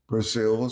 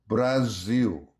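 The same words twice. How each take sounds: First: Said in the usual way. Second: "Brazil" with the final L turned into a W glide; vocalized final L. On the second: Shown as a demonstration. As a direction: say "Brazil" as bra-ZEE-oo. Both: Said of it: "often vocalizes final L".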